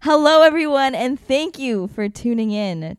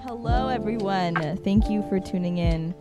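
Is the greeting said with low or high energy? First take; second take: high; low. First: It is said with high energy. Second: It is said with low energy.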